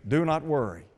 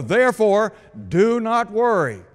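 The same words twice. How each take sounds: First: Softer, landing "Do not worry" with weight on "Do"; quiet, firm close on "Do"; quiet emphatic. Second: Higher and louder, "Therefore" and "worry" driven hard; rising pulpit insistence on "do not worry"; emphatic command. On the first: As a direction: settle it gently after the build. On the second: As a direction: build to the peak of the repetition. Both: Shown as a demonstration. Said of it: "Jesus emphatically states".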